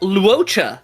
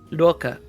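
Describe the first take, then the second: First: The middle consonant is a 'ch' sound. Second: The middle consonant is a 'k' sound. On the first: The speaker calls it wrong. "people go like" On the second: The speaker calls it right. "no, it's Loka"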